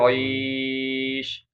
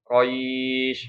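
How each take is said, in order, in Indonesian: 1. Vokal sebelum akhir dibaca sedang. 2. Vokal sebelum akhir dibaca sebentar. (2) "bisa dibaca panjang dua"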